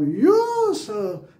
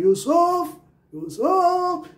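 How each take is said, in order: First: Yusuf called out with a high, long-held यू; drawn-out high यू in a called Yusuf, falling on सुफ; calling, first syllable stressed. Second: Yusuf called out twice, सुफ very high, loud and held; high calling Yusuf with all the weight on सुफ; calling, second syllable stressed. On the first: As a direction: call the name, stretching यू up high and dropping सुफ in Yusuf. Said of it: "कभी हो सकता है आप". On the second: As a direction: call someone by name, throwing Yusuf up onto a long सुफ. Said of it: "सोफ पे ज़ोर मारें". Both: Shown as a demonstration.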